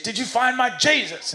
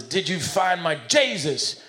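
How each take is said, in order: First: High-pitched, hammed-up Southern preacher yell; mock shouting in someone's face, voice pitched way up. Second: Slow Southern preacher, pitched up; higher, drawn-out Southern accent. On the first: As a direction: demand it like an exasperated Southern preacher. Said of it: "he shouts in his face". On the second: Acted. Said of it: "he's kinda Southern".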